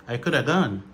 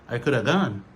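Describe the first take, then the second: The two takes are said the same way.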